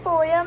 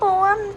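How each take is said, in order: First: The word is said as two syllables. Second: The word is said as one syllable. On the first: The speaker calls it right. "पोयम is still like थोड़ा सुना सुना word लगता है" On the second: The speaker calls it wrong. "पोम थोड़ा weird लग रहा है सुनने में"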